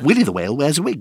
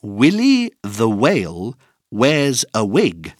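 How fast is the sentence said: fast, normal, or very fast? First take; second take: very fast; normal. First: The sentence is said at a very fast pace. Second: The sentence is said at a normal pace.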